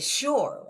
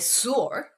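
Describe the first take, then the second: First: It begins with an sh sound. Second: It begins with a plain s sound. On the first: The speaker calls it right. "We say sure, right? But there's no H. But we pronounce H" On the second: The speaker calls it wrong. "never say sure"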